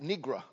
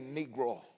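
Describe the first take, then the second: First: The word ends with an 'uh' sound. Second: The word ends with an 'oh' sound. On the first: The speaker calls it wrong. "That was the way she pronounced it" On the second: The speaker calls it right. "she didn't say Negro"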